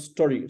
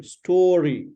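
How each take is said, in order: First: STORY with a short, cut-off first vowel; mispronunciation. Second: STORY with a long, drawn-out AW vowel; correct pronunciation. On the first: Teacher imitates student's error, short-vowel mispronunciation. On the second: Teacher contrasts it with student's error, correct pronunciation. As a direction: stretch the first vowel of STORY. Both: Shown as a demonstration. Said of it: "It's not story".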